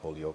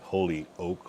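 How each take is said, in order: First: It is said as one run-together word. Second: It is said as two separate words. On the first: The speaker calls it right. "but it's all one word" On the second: The speaker calls it wrong. "We're not like holy oak, like an oak tree"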